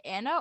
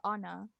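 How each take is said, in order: First: "Anna" with the first A as in "cat"; Anna with flat A. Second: "Anna" with an open "ah" first vowel. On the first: Co-host checking a guest's name, "Anna" with short cat-like A. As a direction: say "Anna" to rhyme with banana's stressed "nan". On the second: Co-host checking a guest's name, "Anna" said as AH-nuh. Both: Shown as a demonstration. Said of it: "Did she pronounce it Anna or Anna".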